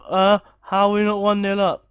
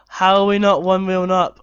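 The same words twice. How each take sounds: First: Loud hammed-up manager rant in a changed voice; mock angry manager. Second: Loud exasperated yell; frustrated shout. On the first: Gamer acting as an irate manager at half time. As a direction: play a furious coach in the dressing room. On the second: Real, not acted. Manager ranting at his team at half time. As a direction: demand an answer from the team.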